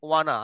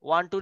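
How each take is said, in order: First: It is blended into one reduced word. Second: It is said as two full separate words.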